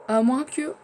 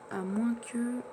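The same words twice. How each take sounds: First: Rising, louder "À moins que" as an idea hits; sudden idea. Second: Said in the usual way. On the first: Real, not acted. Alone in his game, hit by a sudden idea. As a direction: blurt "À moins que" up high and loud, struck by a thought. Gamer struck by a new idea.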